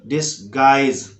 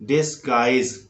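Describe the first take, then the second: No difference in how they are said.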